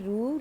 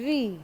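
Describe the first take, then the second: First: The letter is said as 'ru' with an oo vowel. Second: The letter is said as 'ri' with an ee vowel. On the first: This is the Gujarati way of saying the letter. "Gujarati में हम लोग रू बोलते हैं" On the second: This is the Hindi way of saying the letter. "Hindi में हम लोग ये रू को क्या बोलेंगे? री।"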